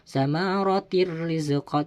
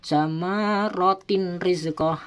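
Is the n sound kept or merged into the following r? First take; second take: merged; kept. First: The n sound merges into a doubled r. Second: The n sound is pronounced before the r. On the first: The speaker calls it right. "harus dimasukkan suara tanwin tersebut kepada huruf yang sesudahnya" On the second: The speaker calls it wrong. "tidak boleh"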